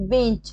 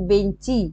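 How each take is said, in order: First: Said in the usual way. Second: বেঞ্চি ending in a clear "i"; vowel added at end. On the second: Shown as a demonstration. Teacher showing a vowel at word end, বেঞ্চি with final "i". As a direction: say বেঞ্চি as "ben-chi". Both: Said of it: "শব্দের শেষে স্বরধ্বনি কিভাবে এসছে".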